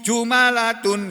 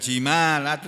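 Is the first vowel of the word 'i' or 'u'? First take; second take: u; i. First: The first syllable has the vowel 'u'. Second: The first syllable has the vowel 'i'. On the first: "Yakub membacanya bidomil jim" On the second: "bukan jimalatun"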